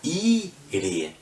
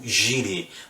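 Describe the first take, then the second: First: The word begins with a vowel sound. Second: The word begins with a J sound. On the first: The speaker calls it right. "ele vai ler Adonai Ire" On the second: The speaker calls it wrong. "ele não vai ler como Jireh"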